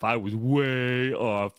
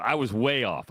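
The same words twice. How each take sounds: First: "way" stretched long and slow; drawn-out WAY. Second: Said in the usual way. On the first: Real, not acted. Host admitting his bad line guess, drawn-out "way". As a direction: hold the vowel of "way" for emphasis.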